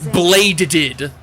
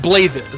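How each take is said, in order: First: The middle consonant is a plain D sound. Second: The middle consonant is a soft TH sound. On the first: The speaker calls it wrong. "if you were to pronounce it like, you know, as it's read, you, like by American logic" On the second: The speaker calls it right. "but it's pronounced blathed"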